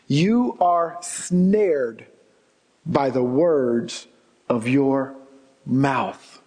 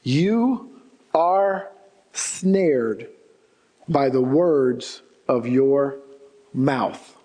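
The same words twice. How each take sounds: First: Very slow, lower, each phrase set apart; drawn-out solemn preacher emphasis; slow emphatic repeat. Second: Said in the usual way. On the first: Shown as a demonstration. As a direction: let every word of "You are snared by the words of your mouth" land slowly, pausing between phrases. Repeats the verse slowly for weight. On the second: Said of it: "New King James Version puts it this way".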